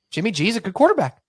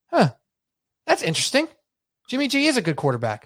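First: Higher and fast: "Jimmy G is a good quarterback" rushed out in disbelief; incredulous repeat. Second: Dry, skeptical musing that peaks high on "interesting"; mock musing. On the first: Retold or imitated. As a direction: blurt "Jimmy G is a good quarterback" like you can't believe it. Repeats the fan's claim in disbelief. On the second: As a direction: play along, unconvinced, with "Jimmy G is a good quarterback". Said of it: "And I go".

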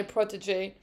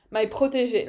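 First: French word said with an American accent; fake American accent. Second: "protege" said with a French r; French pronunciation. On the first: Real, not acted. Fan calling the driver her protege, fake American accent. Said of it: "fake American accent to say a French word". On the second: Shown as a demonstration. Fan correcting herself on "protege", saying it in French. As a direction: say "protege" the French way, not the American. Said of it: "Let's say it in the right way".

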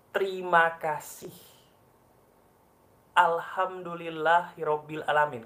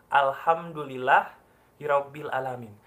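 First: Said in the usual way. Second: Audible to your own ears. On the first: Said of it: "Ulangi lagi". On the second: Shown as a demonstration. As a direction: say it out so your ears hear "Alhamdulillah". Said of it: "Katakan dengan suara yang kedengaran kuping kamu".

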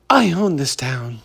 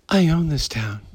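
First: Understated smug tough-guy line; lightly voiced Hollywood poser; Hollywood impression. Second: Softer, lightly voiced tough-guy boast; mock the ex-friend's soft swagger; Hollywood impression. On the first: Host imitating an ex-bandmate's Hollywood talk, mild mock swagger. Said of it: "my Hollywood impression". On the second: Host showing how his punk ex-friend talks, softer mock boast. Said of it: "this is how he talks".

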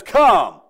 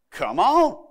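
First: One loud, commanding "Come"; King James version. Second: Casual Oklahoma "come on", lifting at the end; easygoing Oklahoma invitation; Oklahoma version. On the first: Jesus calling Peter onto the water, a loud scriptural command. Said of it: "the King James says". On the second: Jesus calling Peter onto the water, in a folksy Oklahoma way. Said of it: "that's the Oklahoma version of that". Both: Acted.

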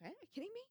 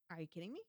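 First: Much higher, disbelieving; mock outrage, pitched way up; incredulous. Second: Said in the usual way. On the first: Wife disbelieving husband's ignorance, pitched way up. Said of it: "I'm like". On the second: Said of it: "And I'm like".

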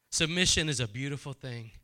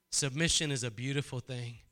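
Both takes have the same delivery.

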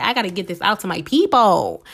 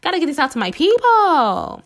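First: Said in the usual way. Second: Determined self-quote. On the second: Retold or imitated. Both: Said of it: "but I'm like".

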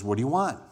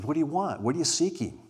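First: A blunt, pushy "What do you want?" as a challenge; demanding tone. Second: A gentle, welcoming "What do you want?" asked as an open invitation; invitational. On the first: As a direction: ask "What do you want?" as if confronting them. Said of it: "maybe not with that tone". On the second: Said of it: "A little bit more invitational". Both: Shown as a demonstration.

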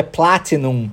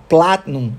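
First: "Platinum" as PLA-ti-num, T sounded; careful full form of "Platinum". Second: "Platinum" as PLAT-num, T swallowed; casual American "Platinum", T unreleased before num. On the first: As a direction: say "Platinum" in three syllables with a released T. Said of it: "Mas a palavra é Platinum". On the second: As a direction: say "Platinum" with a glottal stop for the T. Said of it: "engoli o T". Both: Shown as a demonstration.

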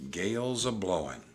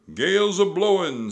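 First: Said in the usual way. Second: High, loud pirate shout; Pinky. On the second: A narrator's reading. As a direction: holler a storm warning. Pinky warns over the storm.

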